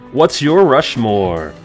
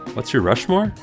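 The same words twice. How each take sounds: First: It ends falling, like an exclamation. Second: It ends rising, like a question.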